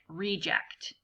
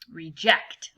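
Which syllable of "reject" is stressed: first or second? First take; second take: first; second. First: The stress is on the first syllable. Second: The stress is on the second syllable. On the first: It names a person. "where you have the emphasis on the first syllable" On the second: It names an action. "emphasis being on the second syllable. Um, reject, like that, using it as a verb"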